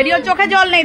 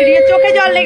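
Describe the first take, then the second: First: Said in the usual way. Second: Much higher and louder teasing cry; teasing exclaim. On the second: Real, not acted. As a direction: announce it loudly in jest. Repeat of teasing line, much louder.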